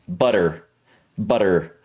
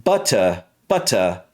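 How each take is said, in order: First: "butter" low, with flapped T and R; American pronunciation. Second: British "Butter", crisp T and open ending; British accent. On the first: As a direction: soften the T in "butter", sound the R. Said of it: "For me, it would be butter". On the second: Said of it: "in the British version". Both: Shown as a demonstration.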